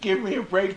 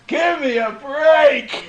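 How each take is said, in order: First: It is said meekly and softly. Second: It is said loudly and forcefully.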